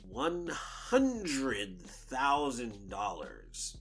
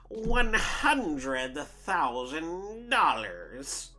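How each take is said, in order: First: It is said in the speaker's ordinary voice. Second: It is said in an exaggerated villain impression voice.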